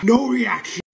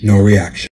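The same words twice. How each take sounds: First: High, loud, straining to stay calm; strained high deadpan. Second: Low, much louder, forced calm; loud low deadpan. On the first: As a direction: fake calm through burning heat. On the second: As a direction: punch it out low and flat. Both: Shown as a demonstration.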